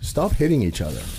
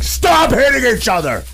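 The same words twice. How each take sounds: First: It is said at a calm, normal volume. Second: It is said with a loud, raised voice. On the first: The kids ignore it. The speaker calls it wrong. "If I just said" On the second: The kids know to stop. The speaker calls it right. "I have to raise my voice"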